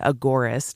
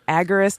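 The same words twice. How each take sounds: First: The middle syllable sounds like 'or'. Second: The middle syllable sounds like 'er'. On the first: The speaker calls it right. "it's agora, like the agora, the market" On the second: The speaker calls it wrong. "Some people say it agorist, and it sounds like A G G E R I S T"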